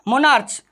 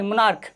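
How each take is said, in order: First: The word ends with a 'ch' sound. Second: The word ends with a 'k' sound. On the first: The speaker calls it wrong. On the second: The speaker calls it right.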